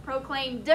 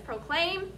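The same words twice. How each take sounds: First: Proclaimed ending on a clear D sound; proclaimed, D ending clearly heard; past tense with D sound. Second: Proclaim, no -ed; base form proclaim. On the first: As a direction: press the final D of proclaimed. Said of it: "the D sound". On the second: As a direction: proclaim said plainly, no ending sound. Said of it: "does it sound exactly like this". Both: Shown as a demonstration.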